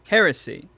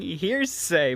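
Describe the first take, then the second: First: The word ends with a 'see' sound. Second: The word ends with a 'say' sound. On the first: The speaker calls it right. "it's gonna take me some time to get used to it" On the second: The speaker calls it wrong. "I've been saying hearsay magic"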